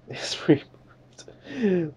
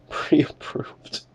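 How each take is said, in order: First: Slow mock whisper. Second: A quick amused whisper of "Pre-approved"; laughing whisper. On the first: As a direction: whisper "It's pre-approved" very slowly, drawn out. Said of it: "this is hilarious". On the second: Real, not acted. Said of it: "Dude, this is hilarious".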